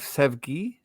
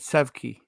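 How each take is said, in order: First: The middle consonant is a voiced g sound. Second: The middle consonant is a hard k sound. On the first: "the spelling is S E V G I" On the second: "I hit that G like a Q"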